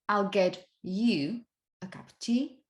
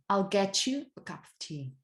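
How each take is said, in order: First: The t and y sounds stay separate. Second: The t and y blend into a ch sound. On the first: "instead of saying" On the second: "you tend to say"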